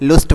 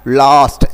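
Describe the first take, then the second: First: The vowel is a rounded 'oo' sound. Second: The vowel is an open 'uh' sound. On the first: The speaker calls it wrong. "न कि लुस्ट वगैरह या कुछ और बोल लेते हैं आप, वो नहीं होगा" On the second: The speaker calls it right. "लास्ट ऐसे बोलना है"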